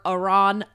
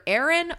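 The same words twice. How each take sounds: First: "Aron" said as uh-RON; second-syllable stress. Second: "Aaron" said as AIR-un; first-syllable AIR. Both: Shown as a demonstration. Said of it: "I think it's pronounced".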